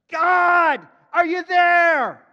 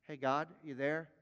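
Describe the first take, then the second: First: Huge, high, drawn-out shout; crying out. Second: Lower, softer, offhand check-in; casual calling. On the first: Preacher as Abraham calling on God, crying out loud. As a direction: call out to heaven at full voice. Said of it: "He cries out". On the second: Preacher mimicking a half-hearted prayer, casual and low. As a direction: toss it out like a casual hello. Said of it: "This isn't like". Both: Acted.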